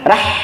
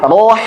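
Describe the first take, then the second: First: The r syllable sounds light and thin. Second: The r syllable sounds heavy and dark. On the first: The speaker calls it wrong. "jangan sampai rohnya malah ikut haknya. Rah gitu" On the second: The speaker calls it right. "Tapi roh"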